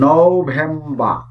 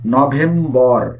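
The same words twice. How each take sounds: First: The final r sound is silent. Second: The final r sound is pronounced. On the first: The speaker calls it right. "এটির সঠিক উচ্চারণ বা standard উচ্চারণ হচ্ছে নভেম্বর" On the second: The speaker calls it wrong. "এটির উচ্চারণ করে থাকি নভেম্বর"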